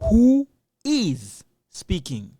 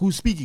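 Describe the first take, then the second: First: The question is said slowly and in full. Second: The question is said quickly and contracted. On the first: "I'm going slowly" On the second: "Sometimes if you want to speak fast"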